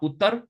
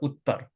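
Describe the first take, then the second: First: The middle t is short, with no pause. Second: The middle t is held with a pause. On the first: The speaker calls it wrong. "Not uttar" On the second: The speaker calls it right. "hold it slightly longer. Uttar. A little pause"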